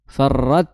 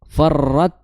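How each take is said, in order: The two takes are said the same way.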